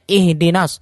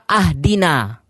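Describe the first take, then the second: First: The word starts with an 'i' vowel. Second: The word starts with an 'a' vowel. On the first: A request asking to be guided. The speaker calls it right. "yang seharusnya ihdinas, ya, kasroh" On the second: The speaker claims to give the guidance. The speaker calls it wrong. "dia baca ahdina. Ini kan sudah parah"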